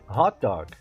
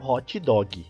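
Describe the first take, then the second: First: The words end cleanly in consonants. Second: An extra vowel follows the final consonants. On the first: The speaker calls it right. "pronúncia correta" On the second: The speaker calls it wrong. "e não"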